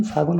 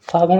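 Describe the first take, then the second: First: फागुन as "phaagun", plain n; dental na. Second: फागुन mispronounced as "phaagaṇ"; retroflex ṇa. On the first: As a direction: finish फागुन with the tongue forward. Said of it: "फागुन होता है". (फागुन के अंत में सीधा "न" बोलें) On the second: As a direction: curl the tongue on the end of फागुन. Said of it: "फागुन नहीं". (फागुन को गलत ढंग से "फागण" बोलें) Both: Shown as a demonstration.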